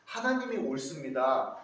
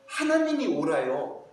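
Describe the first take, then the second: First: Said in the usual way. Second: Humble prayer. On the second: Acted. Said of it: "다윗과 같이".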